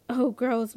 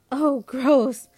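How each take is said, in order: First: Said in the usual way. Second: Louder, whiny sister's protest; wailed disgust. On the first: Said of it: "throwing down her fork". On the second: A narrator's reading. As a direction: wail it out in disgust. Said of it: "Lynette wails".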